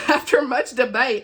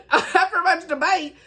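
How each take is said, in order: First: Said in the usual way. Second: Higher and slow, with a laugh in the voice. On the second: Real, not acted. Reader restarting the book blurb after a stumble, laughing. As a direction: restart the blurb line while still laughing at yourself.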